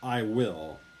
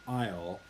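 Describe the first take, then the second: First: It is said as two separate full words. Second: It is said as one contracted syllable. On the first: The speaker calls it wrong. "not I will" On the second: The speaker calls it right. "it's actually pronounced I'll"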